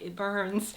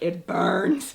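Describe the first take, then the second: First: It is said in a calm, even way. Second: It is said in a distressed, dramatic way. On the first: The speaker calls it right. "I was really calm" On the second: The speaker calls it wrong. "I wasn't saying it like that"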